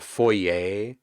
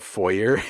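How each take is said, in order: First: The word gets the upscale, fancy pronunciation. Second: The word gets the plain, everyday pronunciation. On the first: It refers to an entryway in a wealthy home. "the entryway in a fancy home" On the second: It refers to an entryway in an ordinary home. "the entryway in a house, like a common person's house"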